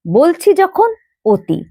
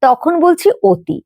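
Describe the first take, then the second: First: অতি pronounced "oti", first vowel rounded to o, slowly; spoken form, slow. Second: অতি said as "oti" with an o sound, slowly; spoken form, slow. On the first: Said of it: "আমরা লিখলাম অতি". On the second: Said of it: "কিন্তু বলছি যখন". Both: Shown as a demonstration.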